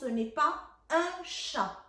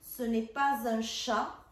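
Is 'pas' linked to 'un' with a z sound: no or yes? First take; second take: no; yes. First: Pas and un are said without a linking z. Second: Pas and un are joined by a linking z. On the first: "je ne fais pas la liaison" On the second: "si je fais la liaison, et c'est comme ça qu'il faut lire"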